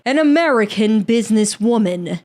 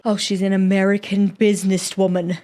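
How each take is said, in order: First: Hammed-up British accent, theatrical emphasis; dramatic British accent. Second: Lightly put-on British accent. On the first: Shown as a demonstration. Podcaster retries the businesswoman line, dramatic British accent. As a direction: redo it dramatically in mock British. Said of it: "it needs to be dramatic". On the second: Podcaster quips about a businesswoman, British accent. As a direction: say it as a mock-British aside. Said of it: "I said that in a British accent".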